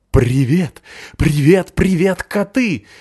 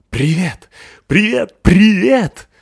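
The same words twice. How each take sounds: First: High, loud, eager big puppy; excited dog voice. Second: High, loud, rising puppy joy; excited dog greeting. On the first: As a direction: call out to the cats, bouncing. Пёс Рокки зовёт котов. (восторженный щенячий голос) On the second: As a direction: bounce with joy greeting the boy. Радостный пёс Рокки здоровается. (восторженный собачий голос) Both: Acted.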